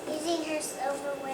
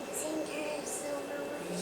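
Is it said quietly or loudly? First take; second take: loudly; quietly. First: It is said more loudly. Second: It is said quietly.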